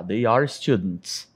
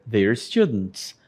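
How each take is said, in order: First: "They are students" with "They" and "are" apart; full form, slow. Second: "they're students" with "they're" as one quick syllable; contracted, quicker. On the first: Teacher shows the full form slowly before the contraction. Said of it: "Simplesmente eu poderia falar they're". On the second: Teacher shows the contraction is a little quicker. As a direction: glide "they're" into one beat. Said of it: "Mais rápido". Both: Shown as a demonstration.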